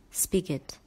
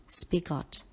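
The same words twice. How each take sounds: First: Said in the usual way. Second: "spigot" with a full GOT at the end; wrong pronunciation. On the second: Shown as a demonstration. Teacher warning students against reading got in spigot, mispronounced demo. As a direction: say "spigot" as spi-GOT, like the word got. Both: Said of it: "it is not pronounced as spigot".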